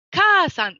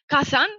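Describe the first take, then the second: First: "kaasan" with the first a held and louder; long A. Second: "Kasan" with a brief first a; short A. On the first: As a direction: stretch and push the "kaa" of "kaasan". (« kaasan » avec un a long et appuyé) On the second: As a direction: keep both vowels of "Kasan" short. (« Kasan » avec un a bref) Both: Shown as a demonstration. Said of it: "il s'agit d'un allongement de la voyelle".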